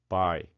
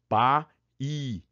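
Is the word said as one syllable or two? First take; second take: one syllable; two syllables. First: The word is one syllable with a weak i. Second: The word splits into two syllables, both vowels strong. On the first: "você ficou com pai" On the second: "Força as duas, tá? Tanto A quanto I são fortes"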